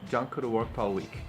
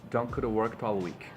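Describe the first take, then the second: Both takes have the same delivery.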